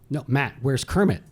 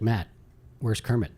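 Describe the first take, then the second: First: It sounds angry and annoyed. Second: It sounds calm and casual.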